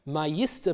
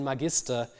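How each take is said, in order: First: Magister with the g softened to a y sound, "ma-YIS-ter"; palatalized g. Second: Magister with a hard g as in "get"; Latin hard g. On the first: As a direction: turn the g of magister into a y. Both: Shown as a demonstration. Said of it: "It becomes master through palatalization".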